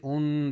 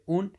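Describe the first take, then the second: First: The sound is held before release. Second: The sound is released cleanly without holding. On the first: The speaker calls it wrong. "Don't say un, that's wrong" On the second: The speaker calls it right. "make sure say clearly without holding"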